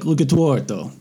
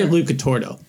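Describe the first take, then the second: First: The name is said with a foreign-style accent. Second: The name is said plainly, without the accent. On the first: "if you say it with like the accent" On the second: "I say Lucatardo"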